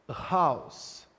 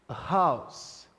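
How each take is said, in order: No difference in how they are said.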